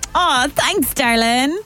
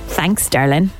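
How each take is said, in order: First: It sounds warm and happy. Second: It sounds mocking and sarcastic.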